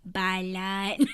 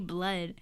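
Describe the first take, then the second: First: An extra vowel splits the word into two syllables. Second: The word is said plainly as one syllable. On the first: This imitates how someone else says it. "when my mom says blood, she says it like balat" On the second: This is the speaker's own usual way. "why don't you just say blood?"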